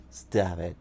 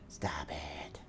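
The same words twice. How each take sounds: First: Said in the usual way. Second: Much softer, whispered to the cat. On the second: Real, not acted. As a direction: hush the cat under your breath. Telling the cat off.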